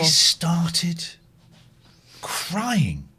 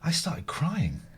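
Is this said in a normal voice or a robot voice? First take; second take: robot; normal. First: It is said in a prim, stiff robot voice. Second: It is said in the speaker's ordinary voice.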